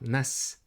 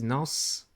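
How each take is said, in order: First: The s sound is light and thin. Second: The s sound is heavy and full. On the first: The speaker calls it wrong. "This is not nas" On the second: The speaker calls it right. "this is nas. This is bolder se"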